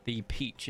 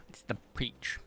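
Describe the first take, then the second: First: Said in the usual way. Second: Breathy hushed whisper, no voice; soft aside whisper. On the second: Real, not acted. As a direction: whisper it under your breath. Repeats the colour softly.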